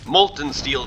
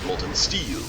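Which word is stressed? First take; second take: molten; steel. First: The stress falls on the word molten. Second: The stress falls on the word steel. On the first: The speaker calls it wrong. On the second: The speaker calls it right.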